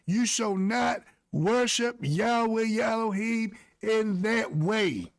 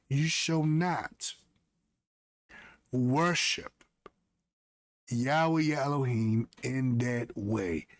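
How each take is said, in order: First: The sentence is said at a normal pace. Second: The sentence is said very slowly.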